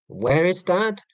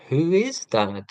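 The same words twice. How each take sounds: First: Lightly voiced child's question, pitched up; higher, questioning kid impression, mild; imitating his kids. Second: Lightly voiced puzzled child; mildly put-on kid's question, swooping up then dropping; imitating his kids. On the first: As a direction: lightly mimic a kid asking, rising at the end. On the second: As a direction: lightly mimic a kid asking who someone is. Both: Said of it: "If the question goes from where to who".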